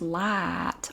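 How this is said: It is said in a general, non-regional accent. This is how other people say it. "Some people pronounce light or night"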